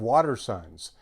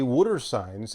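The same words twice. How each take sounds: First: Water is said in a standard accent. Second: Water is said in a Philadelphia accent. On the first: "instead of water signs" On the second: "why I say water signs"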